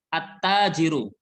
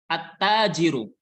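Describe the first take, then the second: The two takes are said the same way.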